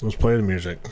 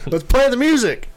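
First: It is said flatly, without enthusiasm. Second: It is said with lively enthusiasm.

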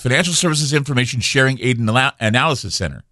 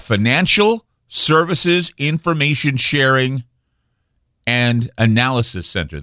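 First: The name is said at a normal pace. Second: The name is said at a slower pace.

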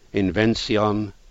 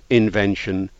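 First: It is pronounced an older, Elizabethan way. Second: It is pronounced the modern way. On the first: This is how it was said in the 1580s and 1590s. "In Shakespeare's time, in the 1580s and 90s, people said" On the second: This is how it is said today. "Everybody today says words like"

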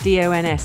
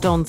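First: The name is spelled out letter by letter. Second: The name is said as a single word. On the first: The speaker calls it right. "I say it like that" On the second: The speaker calls it wrong. "not Dons"

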